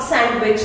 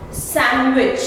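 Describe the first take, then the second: First: "sandwich" with the d sounded, sand-wich; mispronounced sandwich. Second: Said in the usual way. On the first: Shown as a demonstration. Teacher showing learners the mistake, d sounded in "sandwich". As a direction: wrongly pronounce the d in "sandwich". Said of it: "not sandwich". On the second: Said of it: "again D silent".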